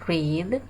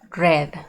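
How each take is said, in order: First: The vowel is long, as in 'reed'. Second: The vowel is short, as in 'red'. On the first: It is the present tense. "en el presente o de forma normal se lee read" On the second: It is the past tense. "en pasado se lee red, como el color"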